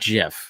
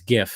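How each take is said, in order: First: It begins with a soft J sound. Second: It begins with a hard G sound. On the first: The speaker calls it wrong. "GIF is a peanut butter" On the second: The speaker calls it right. "The first the first word is graphics"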